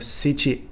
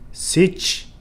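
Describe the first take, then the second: First: Every syllable is fully pronounced, including the final vowel. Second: The final vowel is dropped, ending on the consonant.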